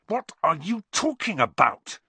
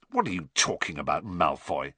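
First: High, heated outburst; angry demand. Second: Quick, low, gruff demand; rough retort. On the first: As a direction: demand an answer angrily, pitched well up. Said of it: "said Harry angrily". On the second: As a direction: challenge him roughly, in a low register. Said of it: "said Ron roughly". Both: A narrator's reading.

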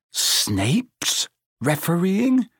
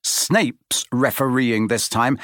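First: High, slow, disbelieving splutter. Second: Said in the usual way. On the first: A narrator's reading. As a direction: choke out the news in shock. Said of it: "he spluttered".

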